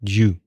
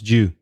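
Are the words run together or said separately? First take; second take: run together; run together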